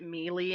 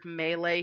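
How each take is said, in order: First: It sounds like the word 'mealy'. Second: It is said the usual way, not like 'mealy'.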